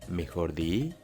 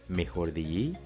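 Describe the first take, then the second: The two takes are said the same way.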